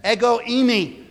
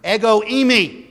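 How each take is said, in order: First: Higher, drawn-out Ego eimi; proclaimed Greek. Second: Ego eimi pitched up and slowed; declared Greek. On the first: Preacher proclaiming Jesus' Greek words, raised. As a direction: ring out Ego eimi as a declaration. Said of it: "When Jesus says". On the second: Preacher proclaiming the Greek I am, raised. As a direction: ring out ego eimi with weight. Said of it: "he uses the Greek word". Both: Shown as a demonstration.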